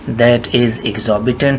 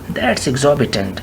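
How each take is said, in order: First: 'That is' is said as two full words. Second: 'That is' is contracted to 'that's'. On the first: "और फिर कहिए दैट इज़ exorbitant" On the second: "और फिर कहिए दैट्स exorbitant"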